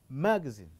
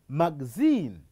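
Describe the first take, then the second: First: It is said in an American pronunciation. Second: It is said in a British pronunciation. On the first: "the American would pronounce it as magazine" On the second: "the British would pronounce as magazine"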